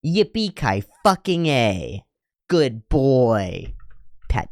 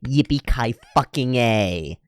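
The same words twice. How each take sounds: First: Slow sarcastic cheer, a bit higher. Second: Slow sarcastic cheer. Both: Pretend. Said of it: "You've reached level five".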